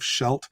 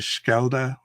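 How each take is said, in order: First: The name is said with English-style sounds. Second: The name is said with Dutch-style sounds. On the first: "a very anglicized uh, pronunciation of Scheldt" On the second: "somebody in Dutch say the word ... comes across something as Schelde"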